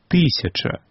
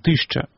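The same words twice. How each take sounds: First: Every unstressed vowel is fully pronounced. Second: An unstressed vowel is swallowed and dropped. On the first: The speaker calls it right. "По-белоруску говорим «тысяча»" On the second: The speaker calls it wrong. "не «тысяча»"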